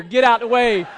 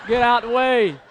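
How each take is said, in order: First: Loud, higher get OUT the way; playful crowd-clearing yell; mock shout. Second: Loud repeat, stress on out; playful crowd-clearing yell; mock shout again. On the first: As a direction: shove through with your voice. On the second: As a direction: keep pushing through.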